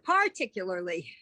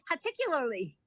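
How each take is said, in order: First: It is said with a standard accent. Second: It is said with a Boston accent. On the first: This is the careful, correct way to say it. The speaker calls it right. "as opposed to" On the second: This is how the speaker grew up saying it. The speaker calls it wrong. "I would normally say"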